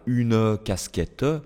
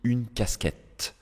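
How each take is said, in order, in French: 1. Les E finaux se prononcent à voix haute. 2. Les E finaux sont muets. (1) "je ne dis pas une casquette" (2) "je dis une casquette. Une, j'entends le N, et le casquette, j'entends le T"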